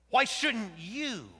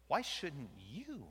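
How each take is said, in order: First: Louder, higher and slow; loud emphatic question. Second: Said in the usual way. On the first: Acted. God pressing Jonah, loud and slow. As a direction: push the question hard.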